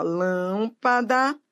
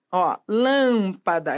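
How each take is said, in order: First: Lâmpada drawn out slowly with a rise; stretched out. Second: Lâmpada slowed, lâm leaned on; stress on lâm. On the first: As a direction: draw out Lâmpada slowly, voice going up. (Lâmpada bem arrastada) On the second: (ênfase na sílaba lâm) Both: Shown as a demonstration. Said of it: "proparoxítona".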